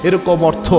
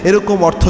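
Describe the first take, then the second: No difference in how they are said.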